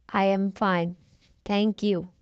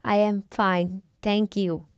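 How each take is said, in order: Both takes have the same delivery.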